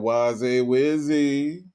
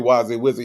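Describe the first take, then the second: First: The pitch rises at the end. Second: The pitch stays level or falls at the end. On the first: The speaker calls it right. "the inflection going up at the end" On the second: The speaker calls it wrong. "He didn't say Wazzy Wizzy"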